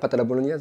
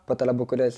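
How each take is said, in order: First: The last word is said clearly as 'bolognaise'. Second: The last word is garbled with a 'k' sound. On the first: It shows the name can be said properly. The speaker calls it right. "je sais le dire" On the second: It imitates the slurred version from the viral video. The speaker calls it wrong. "Je l'avais vraiment mal articulé"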